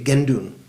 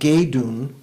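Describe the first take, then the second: First: The first syllable ends in a nasal sound. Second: The first syllable has no nasal sound. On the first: "when you say it fast, you say gendun" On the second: "Instead of saying geidun"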